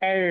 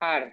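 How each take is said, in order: First: The letter name has an 'eh' vowel, harder r. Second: The letter name has an 'ah' vowel. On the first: This is the German letter name. "একটু হার্ড আর কি উচ্চারণটা, টান থাকে একটা" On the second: This is the English letter name. "ইংলিশে আমরা বলি হচ্ছে আর"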